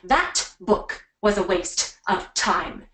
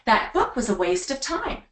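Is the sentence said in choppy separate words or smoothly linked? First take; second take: choppy; smoothly linked. First: Each word is said separately and choppily. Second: The words are linked smoothly together. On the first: The speaker calls it wrong. "notice how I'm not saying" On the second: The speaker calls it right. "we don't make it all so choppy"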